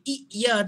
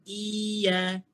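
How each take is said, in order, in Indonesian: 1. Bunyi y ditekan berlebihan dengan hentian glotal. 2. Vokalnya dipanjangkan tanpa ditekan. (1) "dia terlajak tekan, seolah-olah kita menambah hamzah" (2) "Bukan bagi panjang. Tapi tak tekan"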